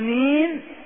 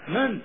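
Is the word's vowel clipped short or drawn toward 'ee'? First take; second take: drawn; clipped. First: The vowel is drawn out toward an 'ee' sound. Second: The vowel is short and the word is clipped. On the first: The speaker calls it wrong. "هذه الإمالة لا وجود لها في لسان العرب" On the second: The speaker calls it right. "قاطع هكذا"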